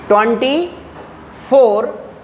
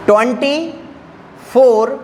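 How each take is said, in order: Both takes have the same delivery.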